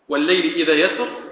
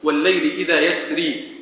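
First: The last word ends in a short i vowel. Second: The last word ends in a long i vowel. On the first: "بالكسر" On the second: "وبالياء"

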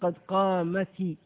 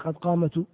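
First: The final t is followed by an i vowel. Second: The final t is held with no vowel. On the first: The speaker calls it right. "تحركها بالكسر" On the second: The speaker calls it wrong. "وليس قد قامت"

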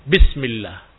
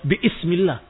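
First: The glottal stop is dropped, words run together. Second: A glottal stop is pronounced before 'ismi'. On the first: The speaker calls it right. "hilang alif ini" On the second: The speaker calls it wrong. "Tidak dibaca bi-ismillah"

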